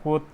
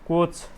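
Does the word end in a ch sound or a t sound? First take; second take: t sound; ch sound. First: The word ends with a t sound. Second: The word ends with a ch sound. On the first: The speaker calls it right. "यसको उच्चारण पनि के हुने भयो, कोत हुने भयो" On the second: The speaker calls it wrong. "कोच चाहिँ भएन"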